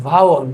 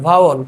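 The two takes are said the same way.

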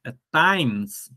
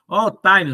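First: "times" as one syllable, taimz, silent e; "times" clipped to one syllable with no final vowel; "times" the American way, silent e; correct English times. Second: "times" said as two syllables, tai-mes, final e voiced; "times" with a Portuguese ending vowel, tai-mes; "times" the way Brazilians say it, with an extra syllable; wrong Brazilian times. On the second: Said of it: "mas não é times". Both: Shown as a demonstration.

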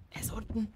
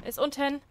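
First: Whisper. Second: Said in the usual way. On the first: Shown as a demonstration. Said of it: "whispered take of repeated line". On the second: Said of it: "plain take of repeated line".

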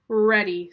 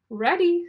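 First: Loud "ready" at normal pitch, falling; firm reply. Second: High, loud, eager "ready"; eager reply. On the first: Iggy answers Rosie that he is ready, loud and firm. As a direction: answer firmly, without lifting the pitch. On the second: Ada answers Rosie that she is ready, high and eager. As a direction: chirp it up high like a keen child. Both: Acted. Two characters answer in turn.

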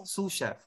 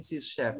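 First: "sous chef" as "soo shef", softer; correct pronunciation. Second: "sous chef" misread as "sis shef"; wrong pronunciation. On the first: Teacher corrects the wrong version, "sous" pronounced "soo". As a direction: say "sous" as "soo", silent final s. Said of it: "It's sous chef". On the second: Teacher warns there is no such word, "sous" misread as "sis". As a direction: say "sous" wrongly with a short vowel and a final s. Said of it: "wala tayong sous chef". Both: Shown as a demonstration.

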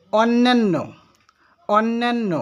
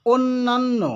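First: অন্যান্য mispronounced as /ɔnːenː/, open ɔ and e; wrong pronunciation demo. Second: অন্যান্য said as /onːanː/, closed o then a, raised; correct pronunciation demo. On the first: Teacher to students, showing the mistaken অন্যান্য. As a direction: say it the common wrong way, with ɔ and e. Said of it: "অথচ আমরা বলি". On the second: Teacher to students, correcting অন্যান্য with o and a. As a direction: say it right, with o and a. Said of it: "সঠিক উচ্চারণ করতে হবে". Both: Shown as a demonstration.

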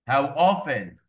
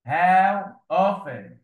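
First: Said in the usual way. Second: How often drawn out very slowly and louder; dictating How often slowly to pupils; slow dictation. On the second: Shown as a demonstration. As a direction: stretch every sound of How often for the class.

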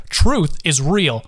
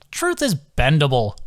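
First: Truth is real, each word slowed and pressed; slow emphatic insistence; slow insistent. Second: Scoffing. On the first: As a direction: insist hard. Carson insists angrily. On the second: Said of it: "seemed to scoff". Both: A narrator's reading.

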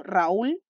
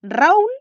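First: RAÚL with the weight on the final syllable, ra-ÚL; stress on second syllable. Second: RAÚL punched loudly on the first syllable, RA-ul; stress on first syllable. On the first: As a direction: lean on the ÚL of RAÚL. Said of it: "en la segunda sílaba". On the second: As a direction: lean hard on the RA of RAÚL. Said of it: "¿Dónde está la sílaba tónica?". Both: Shown as a demonstration.

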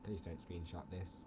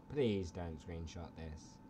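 First: Low, hushed plea. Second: Slow, drawn-out low plea. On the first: Vlogger begging viewers not to screenshot, low soft plea. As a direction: plead softly and low. Pleads, then repeats it slower. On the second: Vlogger begging viewers not to screenshot, slow drawn-out plea. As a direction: stretch the plea out slowly. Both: Pretend.

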